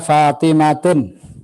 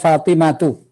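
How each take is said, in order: First: The word ends with an added n sound. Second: The word ends in a plain u vowel. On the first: The speaker calls it wrong. "Saya tidak baca Fatimatun" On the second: The speaker calls it right. "perhatikan Fatimatu"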